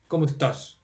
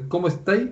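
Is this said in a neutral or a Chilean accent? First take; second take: neutral; Chilean. First: It is said in a neutral Spanish accent. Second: It is said in Chilean style, rising at the end.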